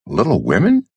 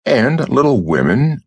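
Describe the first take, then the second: First: A lightly voiced surprised question on "Little Women?"; incredulous echo. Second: Said in the usual way. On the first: A narrator's reading. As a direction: repeat "Little Women?" as if you can't believe it. Burris echoes the title in disbelief.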